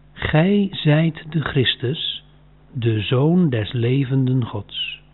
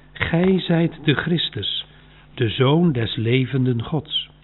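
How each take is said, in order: No difference in how they are said.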